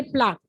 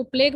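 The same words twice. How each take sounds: First: प्लाक, pronounced 'plaak', hard k ending; correct term plaque. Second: प्लेग, the misreading: 'playg', voiced g ending; misreading as plague. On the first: Teacher giving students the right term, प्लाक said as 'plaak'. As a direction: say प्लाक with long 'aa' and final k. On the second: Teacher warning students off a misreading, प्लेग said as 'playg'. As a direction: say प्लेग with a long 'ay' and final g. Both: Shown as a demonstration. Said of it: "इसको प्लेग मत पढ़ना".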